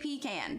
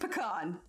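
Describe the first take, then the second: First: The first syllable sounds like 'pee'. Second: The first syllable does not sound like 'pee'. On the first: The speaker calls it wrong. "I will never say pecan because it's not a bunch of peas in a can" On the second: The speaker calls it right. "I'm in Texas. It's pecan"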